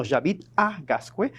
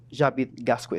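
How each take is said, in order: First: Said in the usual way. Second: "J'habite Gascue" said low, with no "à" between the words; missing "à". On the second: Shown as a demonstration. Teacher warns against the error, "J'habite Gascue" without "à". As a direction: run "J'habite" straight into "Gascue", falling. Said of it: "No digas".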